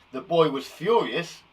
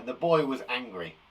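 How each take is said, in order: First: "furious" punched louder, slowly and dramatically; more exciting. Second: Said in the usual way. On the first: Shown as a demonstration. Teacher showing furious improves the sentence, "furious" said with louder dramatic stress. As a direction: lean hard on "furious" for excitement. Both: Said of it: "That makes it more exciting".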